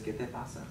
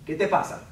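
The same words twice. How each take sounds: First: The question sounds gentle and concerned. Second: The question sounds sharp and confrontational. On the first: The speaker is asking what is wrong out of care. "Like, what's wrong?" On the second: The speaker is challenging the listener's behavior. "Which is like, dude, what's your problem?"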